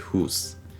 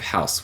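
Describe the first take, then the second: First: The vowel sounds like oo. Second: The vowel sounds like ow. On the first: This is the older pronunciation before the shift. "we say hus" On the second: This is the modern pronunciation. "Instead of house"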